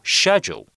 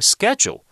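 First: It is said with a British pronunciation. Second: It is said with an American pronunciation.

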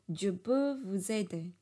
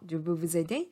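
First: The pitch stays flat at the end. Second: The pitch rises at the end. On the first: "就你看我像我音调就无法上扬" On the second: "问号"

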